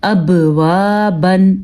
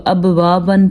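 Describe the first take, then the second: First: Slow اب، وا، بن with a bounced ب; qalqala on ب. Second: اب، وا، بن run on with no bounce on ب; quicker اب، وا، بن, the ب of اب left without echo; missing qalqala. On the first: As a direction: echo the ب in اب, then draw out وا. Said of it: "ہم نے پڑھنا ہے". (اب، وا، بن، ب پر قلقلہ کے ساتھ) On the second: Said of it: "پڑھتے تو ٹھیک نہ ہوتا". (اب، وا، بن میں ب بغیر قلقلہ) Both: Shown as a demonstration.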